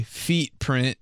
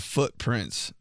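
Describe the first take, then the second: First: "feet print" with ee in place of foot; coworker's botched "feet print"; mispronounced footprints. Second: Said in the usual way. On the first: Retold or imitated. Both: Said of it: "instead of footprints".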